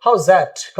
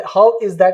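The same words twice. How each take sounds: First: "How's that" run together as howzat; casual, linked "How's that"; contracted form. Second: "How is that" with "is" as its own word; uncontracted "How is that"; clear full form. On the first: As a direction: blend "How's that" into one word. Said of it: "अब उसके जगह पे". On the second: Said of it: "ऐसे clearly बोलते थे". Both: Shown as a demonstration.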